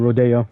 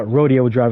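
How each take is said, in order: First: "Rodeo" with a stressed DAY in the middle; Rodeo as roh-DAY-oh. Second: "Rodeo" with a DEE in the middle; Rodeo as ROH-dee-oh. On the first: Gamer giving the street's other pronunciation, "Rodeo" as roh-DAY-oh. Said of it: "instead of Rodeo". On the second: Gamer quoting the game's name for the street, "Rodeo" as ROH-dee-oh. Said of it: "straight up call it Rodeo Drive". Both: Shown as a demonstration.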